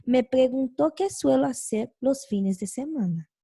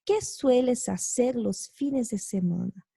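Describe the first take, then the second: First: "Me preguntó qué suelo hacer los fines de semana" told as a statement, falling at the end; indirect question, reported. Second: "¿Qué sueles hacer los fines de semana?" asked as a real question, weight on "Qué"; direct question tune. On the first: Teacher showing students an indirect question, reporting it calmly. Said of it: "yo digo". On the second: Teacher showing students a direct question, asking it outright. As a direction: ask it straight to the person, lifting "Qué". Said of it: "tenemos el ejemplo aquí". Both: Shown as a demonstration.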